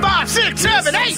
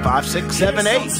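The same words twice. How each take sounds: First: It is said loudly, with lots of energy. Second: It is said flatly, without energy.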